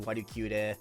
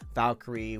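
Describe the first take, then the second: First: The name is said with Japanese pronunciation. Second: The name is said with English pronunciation.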